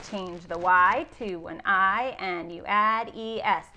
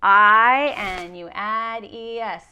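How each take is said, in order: First: Said in the usual way. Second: I and E S said slowly and louder; slow, loud spelled rule. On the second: Shown as a demonstration. Teacher stressing the spelling rule to her pupils. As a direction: hammer out I and E S for the kids.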